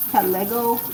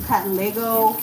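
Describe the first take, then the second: No difference in how they are said.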